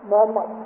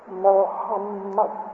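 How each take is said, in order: First: The H sound is weak, not emphasized. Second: The H sound is strongly emphasized. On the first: The speaker calls it wrong. "we usually say Muhammad or Muhammad. It's not good" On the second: The speaker calls it right. "emphasis on H"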